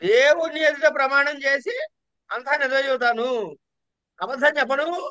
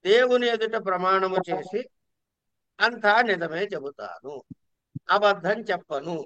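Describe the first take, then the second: First: It is said mockingly, with a defiant questioning tone. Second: It is said as a plain, sincere statement. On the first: Refuses to tell the truth and will only lie. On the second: Promises to tell only the truth.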